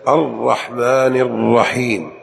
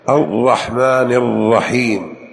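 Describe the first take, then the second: No difference in how they are said.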